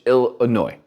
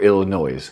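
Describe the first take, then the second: First: The word ends without an S sound. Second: The word ends with an audible S sound.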